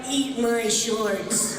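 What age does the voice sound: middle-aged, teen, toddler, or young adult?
young adult. It sounds like a young adult man. "a twenty-two-year-old Bart"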